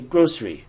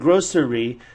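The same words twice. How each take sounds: First: The word is said with two syllables. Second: The word is said with three syllables. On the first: "we say grocery" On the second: "Instead of saying grocery"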